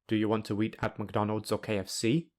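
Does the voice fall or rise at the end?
rise. The voice rises at the end. It is a yes-or-no question about both options. "the speaker will either say, "Sure, I love fast food," or "No"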